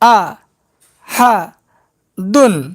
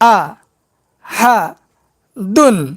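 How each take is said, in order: No difference in how they are said.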